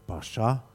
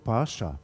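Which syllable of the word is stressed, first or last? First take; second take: last; first. First: The stress is on the last syllable. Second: The stress is on the first syllable. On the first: The speaker calls it right. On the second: The speaker calls it wrong.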